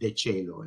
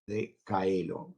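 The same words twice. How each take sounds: First: It is said in a traditional Latin pronunciation. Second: It is said in restored classical Latin pronunciation. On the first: "in Latin" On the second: "with the restituta pronunciation"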